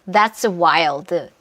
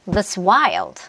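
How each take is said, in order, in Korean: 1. 두 단어 모두 똑같이 세게 읽어요. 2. That's는 약하게 줄이고, wild는 세게 뱉어요. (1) "이게 아니라" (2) "That's 먹고 wild에서 뱉는다"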